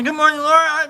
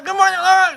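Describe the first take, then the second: First: High greeting. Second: Greeting pitched way up, falling; higher sing-song greeting. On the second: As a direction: sing it out brighter. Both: Acted. Playful repeated greeting.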